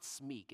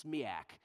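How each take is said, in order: First: Smeak as a single syllable; the mistaken one-syllable "smeak"; wrong pronunciation. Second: Smiak in two syllables, SMEE-ack; "smiak" with an added "ack" ending; corrected pronunciation. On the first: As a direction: say "smeak" to rhyme with speak. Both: Retold or imitated. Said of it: "helped me pronounce that correctly".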